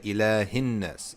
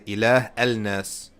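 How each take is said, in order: First: The words are linked without the alif sound. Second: The words are separated with the alif pronounced. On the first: The speaker calls it right. "you say" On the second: The speaker calls it wrong. "You don't say"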